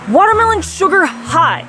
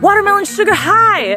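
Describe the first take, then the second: First: It sounds unexcited and not cheerful. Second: It sounds excited and cheerful.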